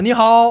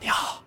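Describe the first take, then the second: First: It is said in a full, projected voice. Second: It is said in a held-back, airy voice.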